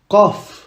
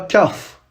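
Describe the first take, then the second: First: The first sound comes from deep in the throat. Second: The first sound is a plain front k. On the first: The speaker calls it right. "On dit qaf. Ça doit venir de la gorge" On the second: The speaker calls it wrong. "Et pas kaf"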